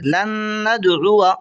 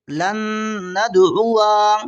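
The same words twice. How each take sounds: First: लन नदउआ with a short final "wa"; silent final alif. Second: लन नदउआ with a long held final "waa"; wrongly sounded alif. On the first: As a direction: end नदउआ briefly, alif unread. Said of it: "इस तरह पढ़ेंगे". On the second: Teacher shows the alif misread, final vowel held long. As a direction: slowly draw out the end of नदउआ. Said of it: "ये भी अलिफ नहीं पढ़ा जाएगा". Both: Shown as a demonstration.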